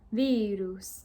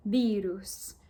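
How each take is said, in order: First: "virus" rising then falling, louder; rise-fall tune. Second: "virus" rising then falling; rise-fall tune. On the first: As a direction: lift then drop "virus". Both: Retold or imitated. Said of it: "that rise and fall".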